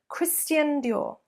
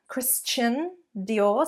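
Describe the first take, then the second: First: The middle of 'Christian' has an 'st' sound. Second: The middle of 'Christian' has a 'ch' sound. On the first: The speaker calls it right. "so a st rather than a ch" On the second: The speaker calls it wrong. "so a chun there"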